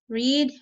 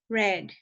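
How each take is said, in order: First: The vowel is long, like in 'reed'. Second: The vowel is short, like in 'red'. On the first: It is the present tense. "spelled the same, but pronunciation is different" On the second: It is the past tense. "So I already read past"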